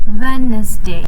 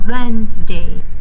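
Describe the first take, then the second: First: The word is said with three syllables. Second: The word is said with two syllables. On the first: The speaker calls it wrong. "the wrong pronunciation for Wednesday will be" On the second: The speaker calls it right. "the right pronunciation is ... has two syllables"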